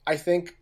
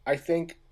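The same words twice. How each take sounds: The two takes are said the same way.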